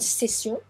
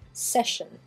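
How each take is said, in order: First: The middle consonant is a plain 's' sound. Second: The middle consonant is a 'sh' sound.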